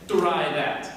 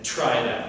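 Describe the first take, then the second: First: The t sounds carry almost no air. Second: The t sounds carry a strong puff of air. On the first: The speaker calls it wrong. "in English we don't say try that" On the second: The speaker calls it right. "there's tons of air"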